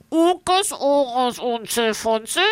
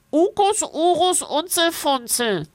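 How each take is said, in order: First: Nachgeäfft mit zugehaltener Nase. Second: Hoch und näselnd; durch die Nase. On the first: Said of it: "Er hält sich die Nase zu und wiederholt". (Hotte äfft das Wesen nach, mit zugehaltener Nase) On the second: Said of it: "Es spricht durch die Nase". (hoch und näselnd gesprochen) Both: A narrator's reading.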